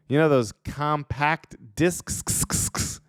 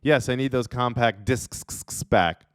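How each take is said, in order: First: Slow, drawn-out "compact discs" with a long hissing sks ending; odd hissed discs. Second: "discs" dragged into a hissing sksks; weird discs. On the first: Friend lends discs and then says the word strangely, drawing out the hiss. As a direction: stretch "discs" into a hissing sksks, slowly. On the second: Friend wants his discs back and says the word strangely. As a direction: say "compact discs" with a long hiss at the end. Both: Pretend. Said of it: "Why are you saying it like that?".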